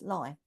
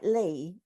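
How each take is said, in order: First: The vowel sounds like the 'i' in lie. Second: The vowel sounds like the 'ee' in see. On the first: The speaker calls it right. "but it's actually pronounced Lie" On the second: The speaker calls it wrong. "it looks like Lee"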